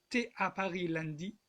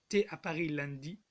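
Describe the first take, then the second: The two takes are said the same way.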